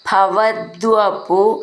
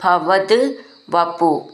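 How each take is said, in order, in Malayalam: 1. ഇത് ഒറ്റ വാക്കായി ചേർത്താണ് ചൊല്ലുന്നത്. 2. ഇത് രണ്ട് വേറെ വാക്കുകളായി പിരിച്ചാണ് ചൊല്ലുന്നത്. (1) "പിരിച്ചിട്ട് ചൊല്ലാം" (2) "അങ്ങനെ ചൊല്ലാം"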